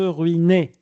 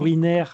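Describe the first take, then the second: First: The ending sounds like 'ay'. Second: The ending sounds like 'air'. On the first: The speaker calls it right. "E R, ça se prononce E" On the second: The speaker calls it wrong. "Pas ruinaire"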